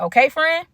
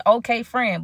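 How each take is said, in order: First: "Okay, friend?" lifted high with a rise at the end; questioning check. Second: "Okay, friend" at normal pitch, falling at the end; agreeing reply. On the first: Friend seeks agreement, storyteller answers. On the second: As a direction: answer "Okay, friend" as a settled agreement, no question. Storyteller repeats it as her answer. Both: Retold or imitated.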